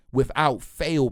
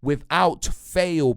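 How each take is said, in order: First: Without fail dragged out slowly, each word weighted; "Without fail" stretched out slow, first word stressed; slow emphasis. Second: "Without fail" spelled out very slowly, a bit louder; "Without" punched, the whole phrase crawled out; slower, louder emphasis. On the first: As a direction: hammer "Without fail" home, slow and deliberate. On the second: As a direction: lean on "Without fail" even harder, drawn out. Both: Real, not acted. Emphatic repetition in football rant.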